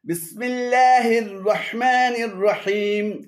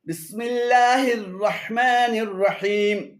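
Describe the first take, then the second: Both takes have the same delivery.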